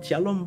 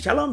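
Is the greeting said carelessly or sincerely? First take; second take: sincerely; carelessly. First: It is said deliberately, with focused warmth. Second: It is rattled off carelessly, without feeling. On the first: The greeting gives a real blessing to the person. The speaker calls it right. "Shalom Pak, shalom Bu... benar-benar kita sedang melepaskan berkat" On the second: The greeting is empty and means nothing. The speaker calls it wrong. "shalom, shalom, shalom... tapi tanpa makna"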